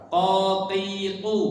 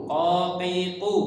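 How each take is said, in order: The two takes are said the same way.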